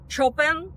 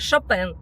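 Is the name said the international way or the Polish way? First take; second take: Polish; international. First: The name is given its Polish pronunciation. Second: The name is given its international pronunciation. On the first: This is how the composer's own countrymen say it. "это ваш соотечественник, великий композитор Чопен" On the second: This is how viewers from all countries will understand it. "в нашем рассказе мы будем применять фамилию именно в таком контексте Шопен"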